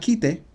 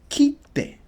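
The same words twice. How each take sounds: First: The word runs on with no pause before t. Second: A brief pause is held before the t sound. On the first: The speaker calls it wrong. "Not kite" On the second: The speaker calls it right. "So you're pausing between it"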